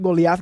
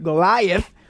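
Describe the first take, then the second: First: The name is pronounced the Spanish way. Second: The name is pronounced the English way. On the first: The speaker calls it wrong. "Not Goliath. Goliath is in Spanish" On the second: The speaker calls it right. "Now I'm saying it better"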